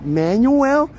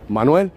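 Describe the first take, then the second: First: "Manuel" as a high, questioning MAN-yoo-el; American mispronunciation. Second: "Manuel" the Spanish way, mahn-WEL; correct pronunciation. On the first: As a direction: stumble on "Manuel" as MAN-you-well, rising. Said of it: "but in America, they're like". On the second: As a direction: say "Manuel" with a clean Spanish ah and two syllables. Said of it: "they pronounce my name good". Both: Retold or imitated.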